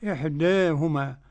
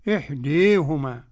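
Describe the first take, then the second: First: The long vowel leans slightly toward 'e'. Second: The long vowel is bent strongly toward 'i'. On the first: "والتقليل" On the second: "بالإمالة الكبرى"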